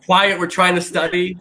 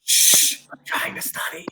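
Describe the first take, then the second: First: A hint of a stern librarian hushing; imitating a librarian, barely changed from her own voice; mock librarian. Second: Hushed, unvoiced librarian whisper; mock librarian whispering; whispered librarian shush. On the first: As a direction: lightly play a librarian scolding noisy students. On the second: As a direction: shush them like a strict librarian, all in a whisper. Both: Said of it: "It's like a librarian look".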